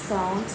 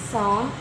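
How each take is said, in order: The two takes are said the same way.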